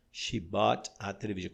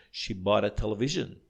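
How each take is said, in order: First: "She bought a television" with each word kept apart and the t of "bought" fully sounded; careful, word by word. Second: "bought a" run together as "bóra", with the t flapped into the vowel; fluid linked speech. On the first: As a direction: spell out each word for beginners. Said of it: "Quando a gente fala mais fluido". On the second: Teacher shows students how natives say it fluently, connected speech. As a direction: say it like a native would, all in one breath. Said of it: "fica assim, ó". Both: Shown as a demonstration.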